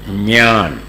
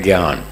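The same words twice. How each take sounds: First: It is said with the Marathi pronunciation. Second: It is said with the North Indian pronunciation. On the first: "Maharashtra वाले" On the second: "उत्तर भारत में इसका उच्चारण है"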